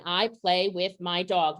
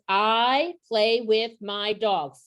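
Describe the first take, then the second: First: Said in the usual way. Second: Each word spaced out slowly for counting. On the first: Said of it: "I'm gonna draw a line". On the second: Retold or imitated. Modeling a sentence for kindergartners, slow and word by word. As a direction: lay the sentence out one slow word at a time. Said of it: "five words".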